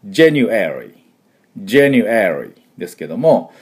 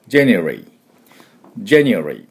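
First: January as ja-nu-e-ri, e clearly sounded; January with full e. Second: January as jen-ri, middle vowel gone; January, vowel cut. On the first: Teacher recapping the full pronunciation, clearly. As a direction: give the e in January its full weight. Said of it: "しっかり発音するのは". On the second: Teacher recapping the clipped version, vowel cut. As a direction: drop the middle of January completely. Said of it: "全く切ってしまうと". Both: Shown as a demonstration.

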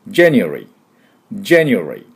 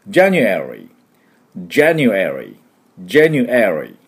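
First: January said as jen-ri, the middle vowel dropped entirely; January, vowel cut. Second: January said as ja-nu-e-ri, the e clearly voiced; January with full e. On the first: Teacher showing the third way, vowel cut. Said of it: "もう完全にカット". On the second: Teacher demonstrating the first pronunciation, vowel fully sounded. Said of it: "絵をしっかり発音する". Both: Shown as a demonstration.

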